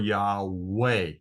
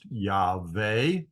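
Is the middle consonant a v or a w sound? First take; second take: w; v. First: The middle consonant is a w sound. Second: The middle consonant is a v sound. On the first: The speaker calls it wrong. "which I believe is incorrect" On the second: The speaker calls it right. "which I believe is correct"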